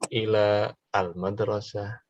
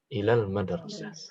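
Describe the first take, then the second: First: The 'a' of 'al' is pronounced separately. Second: The 'a' of 'al' is skipped and linked. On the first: "bisa bilang ila al-madrasah" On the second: "afdalnya ilal madrasah. Langsung dilewat saja"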